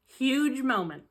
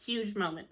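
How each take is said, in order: First: Louder, higher, hyped-up announcement; emphatic. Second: Said in the usual way. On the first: Shown as a demonstration. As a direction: announce it like a big deal.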